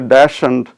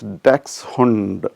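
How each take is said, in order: First: The word sounds like 'dash and'. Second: The word sounds like 'daks-hund'. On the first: This is the common everyday way people say it. The speaker calls it wrong. "if I say dash and, everybody will understand the word" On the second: This is the proper way to say it. The speaker calls it right. "the right pronunciation is dachshund"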